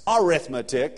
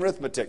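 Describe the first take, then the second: First: The word is said in full, starting with 'a'. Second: The first syllable is dropped, giving 'rithmetic'. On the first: The speaker calls it right. "It's arithmetic, I know" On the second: The speaker calls it wrong. "not even pronunciation correctly"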